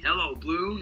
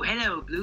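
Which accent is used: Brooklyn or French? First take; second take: Brooklyn; French. First: It is spoken in a Brooklyn accent. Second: It is spoken in a French accent. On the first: This is how the character was first going to talk. "this Brooklyn accent" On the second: This is how the character talks in the show. "this French accent"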